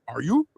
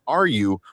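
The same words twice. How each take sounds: First: It is said in a Scooby-Doo-like voice. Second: It is said in a plain normal voice.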